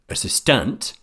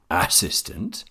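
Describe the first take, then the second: First: The stress is on the last syllable. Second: The stress is on the first syllable. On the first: "or last assistant, it is difficult to understand" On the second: "If I stress the first assistant"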